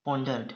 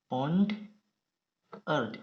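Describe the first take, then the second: First: Said in the usual way. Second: pondered very slow, pond, long pause, earned; split into syllables. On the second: Shown as a demonstration. Teacher writing for shorthand students, pondered slowly split in two. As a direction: pull pondered apart into two pieces.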